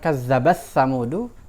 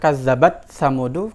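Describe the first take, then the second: First: The final t merges into the following sound. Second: The final t is heard clearly before samudu. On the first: "berarti taknya diidgham ke sa" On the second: "kedengaran ada tak di situ"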